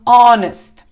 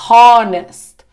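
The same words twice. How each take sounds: First: The word starts directly with a vowel sound. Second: The word starts with an audible h sound. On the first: The speaker calls it right. "falamos honest" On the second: The speaker calls it wrong. "na pronúncia não falamos honest"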